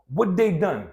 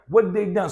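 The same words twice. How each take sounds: First: The word 'had' is reduced away almost entirely. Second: The word 'had' is reduced away almost entirely.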